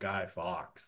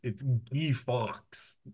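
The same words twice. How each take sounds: First: Guy is pronounced the English way. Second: Guy is pronounced the French way. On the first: "not Guy Fox like we say it here" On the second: "Guy is Guy in French, right? So it's"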